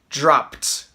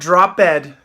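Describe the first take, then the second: First: The ending is a T sound with no extra syllable. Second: The ending is a separate syllable with a D sound. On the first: The speaker calls it right. "it becomes a T sound. You hear a T" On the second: The speaker calls it wrong. "not a D, not drop ed. Don't say drop ed"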